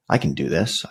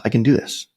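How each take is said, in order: First: Said in the usual way. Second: "I can do this" repeated higher, with a determined lift; mild self pep talk. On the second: Retold or imitated. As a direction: pump yourself up, voice rising on "do". Self-talk, building resolve.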